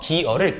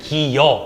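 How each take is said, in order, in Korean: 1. 두 번째 음절은 그냥 'eo' 모음이에요. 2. 두 번째 음절은 'y' 반모음으로 시작해요.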